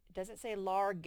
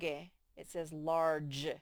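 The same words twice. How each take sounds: First: Large with a hard G; wrong large. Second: Large said with a J sound at the end, slowly; correct large. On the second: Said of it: "That E makes the G say J". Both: Shown as a demonstration.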